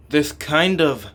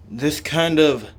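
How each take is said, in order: Both takes have the same delivery.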